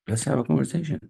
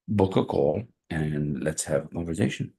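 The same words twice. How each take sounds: First: High emphatic echo. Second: Said in the usual way. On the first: Real, not acted. Coach echoing his invite to viewers, pitched high. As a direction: repeat it much higher, sing-song.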